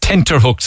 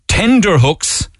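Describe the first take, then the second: First: The first word has a t sound in the middle. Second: The first word has a d sound in the middle. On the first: The speaker calls it right. "It's tenter hooks, apparently" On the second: The speaker calls it wrong. "I'm on tender hooks"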